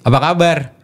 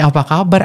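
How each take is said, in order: First: The greeting sounds relaxed and informal. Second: The greeting sounds soft and nurturing. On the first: It is addressed to a peer. "kalau memang yang yang sepantaran" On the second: It is addressed to a child. "Otomatis saya lebih ngemong istilahnya"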